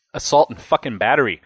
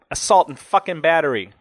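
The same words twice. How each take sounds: First: Sneering disgust at the charge; mildly contemptuous, punched opening word. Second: Higher, aggrieved finish to a rant; bitter, worked-up incredulity; indignant disbelief. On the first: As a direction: say it with a scornful sneer. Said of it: "he said with a sneer". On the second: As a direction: come down from the outburst, still fuming. End of rant, angry snort follows. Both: A narrator's reading.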